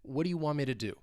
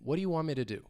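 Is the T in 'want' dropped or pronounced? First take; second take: dropped; dropped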